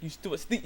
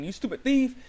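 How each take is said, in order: First: Said in the usual way. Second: High, louder mock-outraged exclamation; retold accusation. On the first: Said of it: "it's like". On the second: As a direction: fling it out at a thief in mock outrage. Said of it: "she's up saying".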